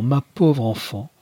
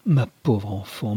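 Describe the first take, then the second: First: Drawn-out pitying cry; slow, rising lament. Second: Slow pitying sigh of a mother. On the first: Mother embraces her daughter, slow rising lament. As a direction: lift the repeat into a slow wail. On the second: Mother pities her daughter on arrival, slow and lamenting. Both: A narrator's reading.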